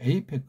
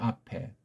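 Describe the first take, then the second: First: The word begins with an 'ay' vowel. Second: The word begins with an 'ah' vowel. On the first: This is a corrupted American-style form. The speaker calls it wrong. "에이펙은 변질한 소리예요" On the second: This is the original British-style form. The speaker calls it right. "영국 회원이 있다면 아펙이라고 부르겠죠"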